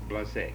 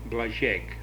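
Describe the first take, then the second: First: The middle consonant is a plain z sound. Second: The middle consonant is a zh sound. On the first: This is the anglicized form of the name. "without the accent, it's Blazek" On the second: This is the original Czech form of the name. "in the real pronunciation, the Czech pronunciation, it would be Blažek"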